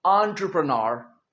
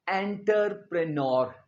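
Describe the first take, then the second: First: एंटरप्रेन्योर said correctly as "aan-truh-pruh-nur", with no "enter" sound; teacher showing how एंटरप्रेन्योर is really said; correct pronunciation. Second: एंटरप्रेन्योर said the wrong way, starting with a clear "enter" and ending "-pre-nor"; the common student mistake on एंटरप्रेन्योर; wrong pronunciation. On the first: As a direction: model एंटरप्रेन्योर the right way, starting "aan-truh". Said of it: "ये है एंटरप्रेन्योर". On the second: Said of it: "ये गलत है". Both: Shown as a demonstration.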